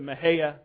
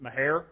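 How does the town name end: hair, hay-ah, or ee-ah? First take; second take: hay-ah; hair. First: The name ends with a 'hay-ah' sound. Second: The name ends with a 'hair' sound. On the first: This is the locally preferred, Spanish-like pronunciation. "I prefer the Mahaya pronunciation. It's somewhat sort of close to how you should say it in Spanish" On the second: This is how some older rural locals say it. "If you're I don't know, 85 and a redneck, you pronounce it Mahair"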